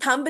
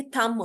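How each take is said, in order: First: थंब with the final b sounded; wrong pronunciation. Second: थंब said as tham, silent b; correct pronunciation. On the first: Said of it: "ये थंब नहीं होता". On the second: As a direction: end थंब on m, no b. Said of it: "ये थंब होता है". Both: Shown as a demonstration.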